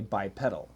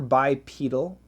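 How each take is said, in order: First: The middle part sounds like the word 'pedal'. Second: The middle part does not sound like 'pedal'. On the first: "we have a pedal... so perhaps most Americans say bipedal" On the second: "personally, I prefer bipedal"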